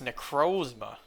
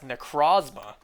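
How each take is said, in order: First: The second syllable has a non-'aw' vowel. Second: The second syllable has an 'aw' vowel. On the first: The speaker calls it right. "this anime confirms it's pronounced Necrozma" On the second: The speaker calls it wrong. "like the the aw sound pronunciation"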